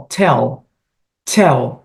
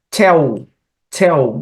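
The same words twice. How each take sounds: First: "Tell" with the tongue up on the palate at the end; clear final L. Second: "Tell" ending in a Portuguese U sound; wrong L sound. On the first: Teacher modelling the correct English L for students. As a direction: finish "Tell" with a true L, tongue raised. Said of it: "língua praticamente ficando no céu da boca". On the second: Teacher showing the wrong vowel-like L to students. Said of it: "e não é esse som". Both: Shown as a demonstration.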